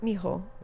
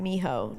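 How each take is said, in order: First: It is said with a Spanish accent. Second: It is said with a strong American accent. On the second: "like in a very American accent"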